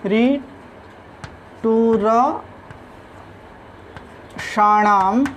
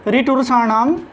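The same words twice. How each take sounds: First: Very slow, drawn-out रिटुरषाणाम, pausing between syllables. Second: Said in the usual way. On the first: Shown as a demonstration. Teacher dictating a Sanskrit rule to students, very slowly in separated syllables. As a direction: stretch रिटुरषाणाम piece by piece, a little softer.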